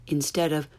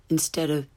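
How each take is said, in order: No difference in how they are said.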